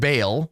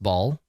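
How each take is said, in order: First: The name has the vowel of 'bale'. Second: The name has the vowel of 'ball'. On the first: The speaker calls it wrong. "I always said Bale" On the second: The speaker calls it right. "It's pronounced ball"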